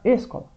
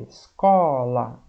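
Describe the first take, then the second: First: The stress is on the first syllable. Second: The stress is on the middle syllable. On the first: The speaker calls it wrong. "não é o ESO mais forte? Não, vai ficar" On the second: The speaker calls it right. "O có é mais forte"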